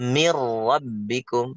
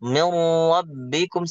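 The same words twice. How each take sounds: First: It goes straight into the r with no n. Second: A nasal n hum is held before the r. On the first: The speaker calls it right. "Langsung aja mir rabbikum seolah-olah nggak ada nun" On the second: The speaker calls it wrong. "Jangan miru, miru, mir rabbikum salah"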